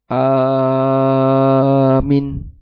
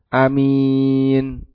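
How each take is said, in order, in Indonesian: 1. Hanya vokal pertama yang dibaca panjang. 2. Hanya vokal kedua yang dibaca panjang. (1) "Yang terjadi kadang dibalik orang. Ini kebalik ya" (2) "dibaca dengan A pendek, minnya yang panjang"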